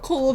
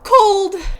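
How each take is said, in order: First: The word is said flatly, without exclamation. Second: The word is said loudly, as an exclamation. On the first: The speaker calls it wrong. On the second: The speaker calls it right.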